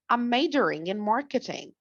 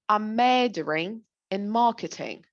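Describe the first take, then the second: First: It is said in an American accent. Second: It is said in a British accent. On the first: "When it comes to the American people, they would say" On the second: "Let's start with the British"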